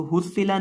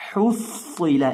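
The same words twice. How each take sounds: First: हुस्सिला with a thin, light s; wrong thin reading. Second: Slow हुस्सिला, heavy doubled s; correct thick reading. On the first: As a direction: say हुस्सिला without thickening the s. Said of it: "हुस्सिला नहीं". ("ہسّلا" باریک سین کے ساتھ) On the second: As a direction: breathe the h from mid-throat, thicken the s in हुस्सिला. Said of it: "सौद को मोटा करके पढ़ना है". (حُصِّلَ حلق کی حا اور موٹے صاد سے) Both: Shown as a demonstration.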